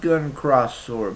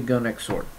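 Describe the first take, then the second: First: The middle word is pronounced as 'cross'. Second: The middle word is pronounced as 'ex'. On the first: The speaker calls it wrong. "maybe supposed to be said Gun Cross Sword, but that just sounds weird" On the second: The speaker calls it right. "it feels just much more Japanese to say Gun X Sword"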